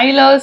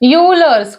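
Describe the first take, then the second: First: The name begins with an 'eye' sound. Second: The name begins with a 'you' sound.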